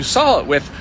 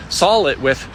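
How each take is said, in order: First: Said in the usual way. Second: "saw" corrected to "sawl", with an L; deliberate mispronunciation. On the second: Real, not acted. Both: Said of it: "continue to mispronounce the word S A W".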